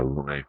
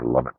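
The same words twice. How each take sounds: First: "Lumet" as loo-MAY; French-style pronunciation. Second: "Lumet" as LUM-it; short first vowel in "Lumet", like "summit"; anglicized pronunciation. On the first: Vlogger praising the film, French-style "Lumet" as loo-MAY. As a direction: silent t in "Lumet", ending in "ay". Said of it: "you wouldn't call him Lumet". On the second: Vlogger correcting himself mid-review, "Lumet" as LUM-it. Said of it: "depending on how you pronounce it". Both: Shown as a demonstration.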